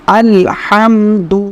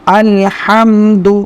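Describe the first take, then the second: No difference in how they are said.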